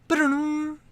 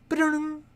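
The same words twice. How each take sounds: The two takes are said the same way.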